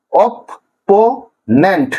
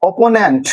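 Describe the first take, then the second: First: opponent very slow, in three separate pieces; syllable by syllable. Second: Said in the usual way. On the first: Shown as a demonstration. Teacher breaking a word for students, opponent in slow syllables. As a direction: say opponent as অপ, পো, নেন্ট, with long gaps. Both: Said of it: "তিনটা সিলেবেলে ভাঙা হয়েছে".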